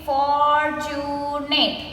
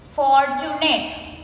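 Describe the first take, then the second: First: "fortunate" stretched as for-tu-nate; three long beats on "fortunate"; slowly broken up. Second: Said in the usual way. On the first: Shown as a demonstration. Teacher counting three syllables, "fortunate" slowly broken up. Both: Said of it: "we say it slowly and we break the word".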